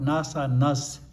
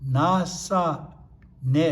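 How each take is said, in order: First: The final syllable ends in an s sound. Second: The final syllable ends in a vowel sound. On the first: The speaker calls it wrong. "not Nasa Nas" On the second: The speaker calls it right.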